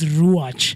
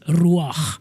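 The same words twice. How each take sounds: First: The ch is said as an English ch sound. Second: The ch is said as a Hebrew throat sound. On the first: The speaker calls it wrong. "how you would think of it in an English per- perspective is the ch of" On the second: The speaker calls it right. "But the actual pronunciation is ruach, and it's of Hebrew origin"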